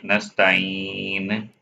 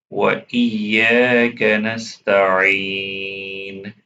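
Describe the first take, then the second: First: نستعين with a weak ع, not from the throat; mistaken ayn. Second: وإياك نستعين chanted, ع from mid-throat; proper ayn. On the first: Teacher imitating a common mistake, نستعين with improper ayn. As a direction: slip over the ع in نستعين without throat constriction. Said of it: "Some people make mistake on this word". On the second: Teacher modelling correct recitation, نستعين with full throat ayn. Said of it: "They don't recite عين properly from middle". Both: Shown as a demonstration.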